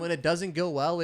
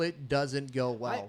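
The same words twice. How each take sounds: First: Said in the usual way. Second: "it doesn't go well" drawn out at half speed, lower; slow emphatic repeat. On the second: Real, not acted. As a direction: land each word of "doesn't go well" slowly.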